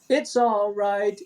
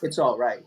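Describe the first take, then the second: First: It sounds warm and soothing, like reassurance. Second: It sounds casual, like a simple status report. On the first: Someone else is being cheered up. "But here is different" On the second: The speaker is fine. "I'm I'm okay"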